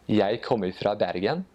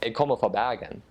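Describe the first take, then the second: First: Eastern Norwegian dialect, rising at the end. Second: Proud Western Norwegian Bergen dialect, R back in the throat. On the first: Guest showing the Eastern Norwegian way to say it. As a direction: say it the Oslo way, as on TV. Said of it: "in the Eastern dialect". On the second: Guest showing a proud Bergen local's Bergen dialect. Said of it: "if you are actually from Bergen". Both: Shown as a demonstration.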